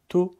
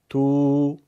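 First: The vowel is short, one beat. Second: The vowel is long, two beats. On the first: "با ضمه یک ضربیه" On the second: "با واو مدی دو برابر"

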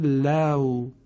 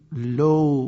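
First: The vowel is an open a gliding into w. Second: The vowel is a rounded oo without open a. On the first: "کلمه لو" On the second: "اشتباهاً لو ممکنه خونده بشه"

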